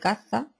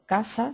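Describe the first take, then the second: First: The middle consonant is a th sound. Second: The middle consonant is an s sound. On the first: "se dice C" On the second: "en vez de decir la S"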